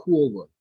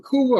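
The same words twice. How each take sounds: First: Couva said KWO-va, oo sliding into oh; alternative pronunciation. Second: Couva said KOO-va, plain long oo; pronunciation check. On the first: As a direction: say Couva with a rounded KOO-OH glide before va. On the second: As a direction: say Couva with a pure oo in the first syllable. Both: Shown as a demonstration. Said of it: "Is it Couva or Couva?".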